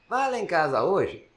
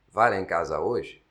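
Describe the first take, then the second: First: It is said at a different voice pitch. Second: It is said at the usual voice pitch. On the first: Another person asks the same question. "eu falei em outra altura" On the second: One person asks the question. "Se você fala"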